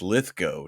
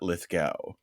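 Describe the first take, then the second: First: The last syllable rhymes with go. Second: The last syllable rhymes with cow. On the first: The speaker calls it right. "So it's" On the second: The speaker calls it wrong.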